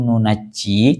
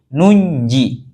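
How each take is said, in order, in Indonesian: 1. Bunyi j-nya dobel dan ditahan lebih lama. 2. Bunyi j-nya tunggal dan ringan. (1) "nunaji, tasydid, jimnya" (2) "mukhaffafan, ditakhfif, dibaca ringan"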